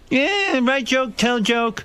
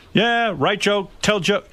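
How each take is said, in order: First: Much higher still, slow broken English; higher, slower mock-simple Jay; mock Jay caveman talk. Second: Higher, slow, clipped broken English; slow mock-simple Jay; mock Jay caveman talk. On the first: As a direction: push the dumb voice even further up. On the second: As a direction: dumb it down like a simple joke machine. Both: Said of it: "he goes".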